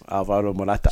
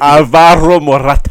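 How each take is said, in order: First: The name is said at normal, quieter volume. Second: The name is said loudly.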